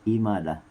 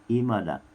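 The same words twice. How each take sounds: No difference in how they are said.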